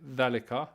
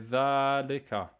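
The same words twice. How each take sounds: First: The first vowel is said short. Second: The first vowel is said long. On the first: The speaker calls it wrong. "you don't say ذلك" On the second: The speaker calls it right. "you say ذلك"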